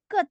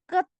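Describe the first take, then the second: First: "ket" stopped on T with no puff; T without H. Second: "ket" with a puff of H after T; wrong, aspirated final T. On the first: Teacher showing the correct reading, "ket" with no H after T. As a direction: close "ket" on an unreleased T. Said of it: "Tidak boleh ada bunyi H-nya". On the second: Teacher showing the mistake, "ket" ending in breathy TH. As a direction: release the T of "ket" with audible breath. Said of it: "pakai H tidak". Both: Shown as a demonstration.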